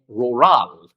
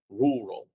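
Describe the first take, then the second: First: The stress is on the second syllable. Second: The stress is on the first syllable. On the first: The speaker calls it wrong. "If it were in the second one, you would say rural" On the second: The speaker calls it right. "you say rural"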